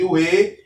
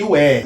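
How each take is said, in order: First: E said with a closed mouth, as "ê". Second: E said open, as "é", and louder. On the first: Teacher contrasts two Hebrew vowels, closed E. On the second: Teacher contrasts two Hebrew vowels, open E. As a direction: hit E as a loud, open "é" vowel. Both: Shown as a demonstration. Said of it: "Este E aberto".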